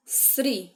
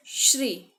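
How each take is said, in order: First: "श्री" said with a plain "s": "sri"; syllable pronunciation model. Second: "श्री" opening with a hushing "sh": "shri"; syllable pronunciation model. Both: Shown as a demonstration. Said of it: "ऐसे उच्चारण करेंगे".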